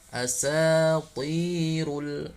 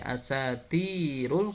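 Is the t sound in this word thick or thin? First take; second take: thick; thin. First: The t is thick and heavy. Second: The t is thin and light. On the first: The speaker calls it right. "Tapi tetap walaupun kasrah, ta tetap tebal" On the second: The speaker calls it wrong. "Jangan dibaca asatirul, kalau dibaca asatirul maka yang keluar huruf ta"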